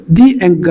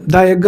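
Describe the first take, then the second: First: ది said slowly as "dee" before egg. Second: ద said "da" before egg; THE wrongly as "da". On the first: Teacher correcting learners before a vowel word, ది as slow "dee". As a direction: stretch ది to a long ee, then egg. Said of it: "ది egg అనాలి". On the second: Teacher showing learners what to avoid, ద as "da" before egg. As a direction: say ద with an open a sound before egg. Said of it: "ద egg అనకూడదు". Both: Shown as a demonstration.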